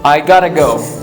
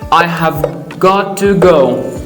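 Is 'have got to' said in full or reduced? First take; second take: reduced; full. First: 'Have got to' is squeezed into a quick 'gotta'. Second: Every word of 'have got to' is said fully.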